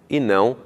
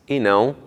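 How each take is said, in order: Both takes have the same delivery.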